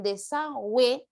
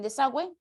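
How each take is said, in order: First: "desagüe" stretched slowly, part by part; drawn out. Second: Said in the usual way. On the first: Shown as a demonstration. Teacher showing pupils the diphthong, "desagüe" drawn out. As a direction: sound out "desagüe" slowly for the class.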